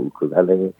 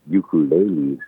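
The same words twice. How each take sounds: First: The word begins with a plain 'oo' sound. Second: The word begins with a 'yoo' sound. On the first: This is how people in Hawaii say it. "You'd always say" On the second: This is how people outside Hawaii say it. "more like a Y-U sound rather than just a uku"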